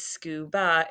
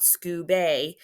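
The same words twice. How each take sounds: First: Relax the last vowel of scuba to uh; right scuba. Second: Scuba with a full "ay" at the end, skoo-bay; wrong scuba. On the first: Teacher modelling the correct schwa in scuba. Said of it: "This is scuba". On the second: Teacher showing the wrong way to read scuba. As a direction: say scuba ending in a clear long A. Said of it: "it's not scuba". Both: Shown as a demonstration.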